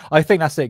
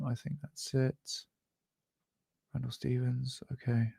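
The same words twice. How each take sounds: First: Said in the usual way. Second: Quiet muttering. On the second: Real, not acted. Muttering to himself while checking notes.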